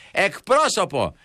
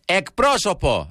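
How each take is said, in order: First: Slow, high, drawn-out yell at the machine; shouting for an operator. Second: Slow, high, stretched call to the phone menu; drawn-out call for an operator. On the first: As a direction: yell it to get a human on the line. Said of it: "φωνάζω και λέω". (φωνάζει αργά και ψηλά στον τηλεφωνητή) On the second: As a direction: draw out the word to demand a human. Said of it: "και λέω πάντα εγώ το γνωστό". (αργή, ψηλή, τραβηγμένη φωνή) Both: Retold or imitated.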